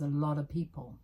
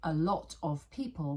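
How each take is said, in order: First: The word 'of' is weak and almost disappears. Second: The word 'of' is said in full.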